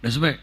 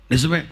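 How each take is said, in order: Both takes have the same delivery.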